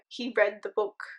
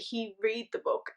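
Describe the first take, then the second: First: The word 'read' sounds like 'red'. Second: The word 'read' sounds like 'reed'. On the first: The speaker calls it right. "Instead of saying" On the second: The speaker calls it wrong. "the computer will say"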